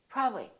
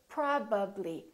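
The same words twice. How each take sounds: First: The word is shortened, with sounds skipped. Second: The lips close fully for every sound. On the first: The speaker calls it wrong. "don't take any shortcuts. Don't say probably" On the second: The speaker calls it right. "Say probably. Fully move your lips and fully pronounce each sound"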